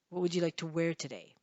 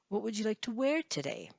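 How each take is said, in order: First: Flat pitch then a fall, sounding angry. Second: Pitch rises before falling, sounding friendly. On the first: The speaker calls it wrong. "You sound angry" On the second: The speaker calls it right. "Those sound more friendly"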